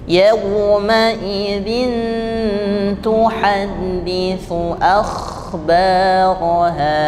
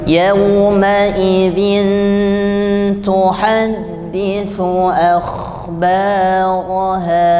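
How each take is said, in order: The two takes are said the same way.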